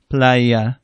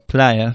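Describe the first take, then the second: First: The word is said slowly and drawn out. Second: The word is said at normal speed.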